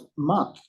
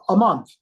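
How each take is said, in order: First: Said in the usual way. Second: Loud, higher, falling in disbelief; stunned echo. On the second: Retold or imitated. Man echoing a stranger's salary figure, stunned. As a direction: throw it back louder, amazed.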